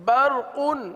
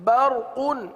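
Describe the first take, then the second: The two takes are said the same way.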